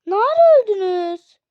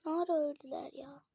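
First: Loud, high cry of disbelief; shocked outburst. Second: Soft, puzzled question to herself; quiet wondering. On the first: Gamer to dead teammates, loud shocked question. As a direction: shout it, stunned that they died. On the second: Gamer to viewers, quiet puzzled repeat. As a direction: murmur it, still baffled. Repeats after loud take. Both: Real, not acted.

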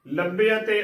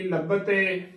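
First: ਲੱਭੇ ਅਤੇ as labbe-a-te, with e and a both sounded; correct pronunciation. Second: ਲੱਭਤੇ run together as labb-te; mistaken pronunciation. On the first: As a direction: give ਲੱਭੇ ਅਤੇ four syllables. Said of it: "ਉਚਾਰਨ ਕਰਨਾ ਹੈ". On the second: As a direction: drop the e-a glide in ਲੱਭਤੇ. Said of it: "ਗਲਤ ਉਚਾਰਨ ਹੋਵੇਗਾ". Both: Shown as a demonstration.

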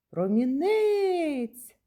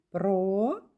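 First: "Промінець" as a long, high call. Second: Split into syllables. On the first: Teacher calls the word to find its stress, calling "Промінець" out. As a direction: call "Промінець" out high, stretching the last syllable. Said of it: "покличемо". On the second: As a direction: sound out "Промінець" syllable by syllable. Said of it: "Ще раз слухайте". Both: Shown as a demonstration.

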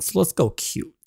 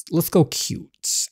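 First: Said in the usual way. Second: Whispered repeat. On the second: Acted.

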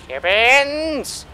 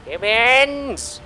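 No difference in how they are said.

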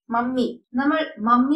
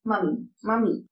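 First: "മമ്മി" with a long doubled m; common mispronunciation. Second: "മമ്മി" with a short single m, like "mami"; don't double the m in "മമ്മി"; correct pronunciation. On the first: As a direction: hold the middle m of "മമ്മി". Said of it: "എന്നല്ല വിളിക്കേണ്ടത്". ("മമ്മി", ഇരട്ട മ ശബ്ദത്തോടെ) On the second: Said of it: "correct pronunciation". ("മമ്മി", ഒറ്റ മ ശബ്ദത്തോടെ) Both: Shown as a demonstration.

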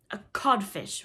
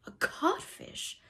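First: Loud, assured insult; mocking reply. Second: High, slow, dumbfounded question; blank echo. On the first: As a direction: deliver the insult in answer to Hook. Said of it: "replied the voice". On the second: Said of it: "Hook echoed blankly". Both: A narrator's reading.

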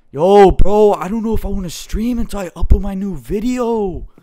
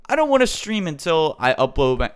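First: High, loud exaggerated impression; Grox. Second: Said in the usual way. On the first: YouTuber imitating friend putting off streaming, high mock impression. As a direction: put on a higher mock voice for a friend's quote. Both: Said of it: "let me see if I can say this like Grox".

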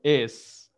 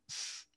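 First: Es said as a voiced vowel then S; Spanish ES sound. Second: S as a bare voiceless hiss; S without a vowel. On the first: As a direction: say es as a full syllable, E first. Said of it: "Nosotros tenemos el sonido es". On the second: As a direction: say s as "sss", no E in front. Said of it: "pero no tenemos s". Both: Shown as a demonstration.

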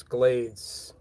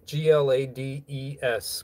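First: Said in the usual way. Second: G L A D E S spelled letter by letter, slowly. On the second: Shown as a demonstration. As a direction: spell out G L A D E S one letter at a time.

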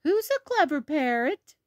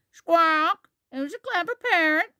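First: High, cooing voice to a pet bird; high-pitched praise for a pet; Granny Pig. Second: High squawking parrot voice; Polly. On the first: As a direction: coax the parrot to copy you. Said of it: "Granny Pig says". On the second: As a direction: squawk loudly, then parrot the words back high. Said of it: "Polly is very good at repeating". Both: Acted.

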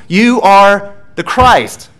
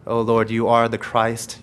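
First: Loud, high and very slow, every word weighted; proclaimed confession. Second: Prayer. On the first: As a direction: ring out the confession like a creed. Climactic confession in sermon. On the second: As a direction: murmur it as a humble prayer. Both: Acted.

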